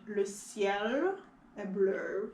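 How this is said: It is said in a curving Canadian French accent.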